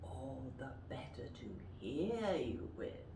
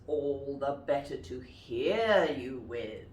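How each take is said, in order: First: Quiet wolf. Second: Wolf voice. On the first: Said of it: "Can you say that?". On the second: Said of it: "And the wolf says". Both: Shown as a demonstration.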